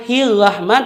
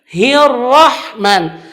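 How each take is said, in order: First: Hirrahman with hard h; hirrahman, h too harsh; wrong h. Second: Hirrahman slow with breathy h; correct h. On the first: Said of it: "Bukan bacanya". (hirrahman dengan huruf H yang salah) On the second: (hirrahman dibaca benar) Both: Shown as a demonstration.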